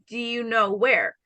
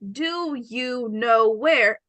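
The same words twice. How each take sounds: First: The words run together, with the vowel in 'do' dropped. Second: Each word is said separately and fully. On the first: "When I speak naturally, I say" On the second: "Instead of saying"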